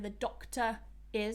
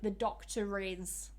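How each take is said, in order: First: Doctor ends without an r sound. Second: An r sound links doctor into is. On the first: "when I pronounce it separately, I don't pronounce that R at the end of doctor" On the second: "if I say it together"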